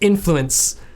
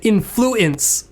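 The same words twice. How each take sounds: First: It is said plainly, syllables run together. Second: Each syllable is said separately with extra emphasis. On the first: "influence can just be like influence, kind of that sound" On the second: "almost like adding extra emphasis to the multisyllableness of the word"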